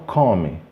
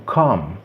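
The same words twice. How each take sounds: First: "come" wrongly as two syllables, có-mi; pronúncia errada. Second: "come" as one syllable, cãm; pronúncia correta. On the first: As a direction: read "come" with O and final vowel. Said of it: "Eu não falo come". ("come" lido có-mi) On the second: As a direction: end "come" on a closed M. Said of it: "Falo come". ("come" numa sílaba, terminando em M) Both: Shown as a demonstration.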